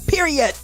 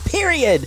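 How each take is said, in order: First: The final T is crisp and strongly released. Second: The final T is soft and barely heard.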